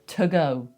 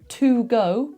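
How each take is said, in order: First: The word 'to' has a reduced schwa vowel. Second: The word 'to' has a full vowel. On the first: "And to often becomes t" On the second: "So to go becomes"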